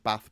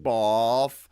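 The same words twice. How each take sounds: First: It is said in a northern English accent. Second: It is said in a southern English accent. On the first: "north versus south" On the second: "north versus south"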